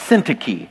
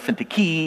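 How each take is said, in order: First: The stress falls on the first syllable. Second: The stress falls on a later syllable. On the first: The speaker calls it right. "The emphasis is on the first syllable" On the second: The speaker calls it wrong. "or Syntyche"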